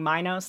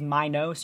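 First: The O vowel is said plainly, without emphasis. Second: The O vowel is drawn out with heavy emphasis. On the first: This is the pronunciation the speaker learned. "I'm saying Minos. That's how I was taught to pronounce it" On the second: This is the pronunciation considered correct. "I think the correct pronunciation is Minos. You put some stank on that O"

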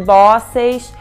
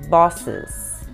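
First: The second-syllable vowel is fully pronounced. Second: The second-syllable vowel is nearly silent. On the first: The speaker calls it wrong. "não é de bosses" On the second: The speaker calls it right. "você não pronuncia o E"

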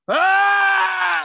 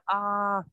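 First: It is a loud, full scream. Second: It is a soft, half-hearted sound.

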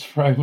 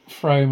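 First: The vowel rhymes with the vowel in room. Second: The vowel rhymes with the vowel in Rome. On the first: The speaker calls it right. "it's Frome as in room" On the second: The speaker calls it wrong. "it's not Frome as in Rome"

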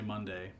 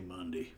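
First: Monday is said in a standard pronunciation. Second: Monday is said in a rural country pronunciation. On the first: "country people don't say Monday" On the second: "They say Monday"

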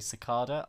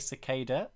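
First: It is said the British way. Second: It is said the American way. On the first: "Brits say cicada" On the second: "I think Americans say cicada"

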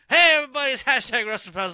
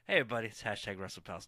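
First: It is said with more hype and energy. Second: It is said in a mellow, low-energy way.

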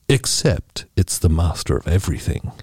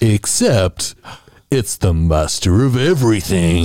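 First: It is read in a plain reading voice. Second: It is read in a dramatic movie-trailer voice.

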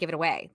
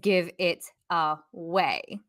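First: It is said very quickly, run together. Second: It is said at a normal, careful pace.

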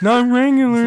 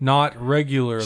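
First: It is said in a put-on voice. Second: It is said in a normal voice.

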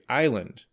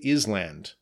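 First: The S sound is silent in the word. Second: The S sound is pronounced in the word. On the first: The speaker calls it right. "the S is silent. we say island" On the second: The speaker calls it wrong. "We don't say island"

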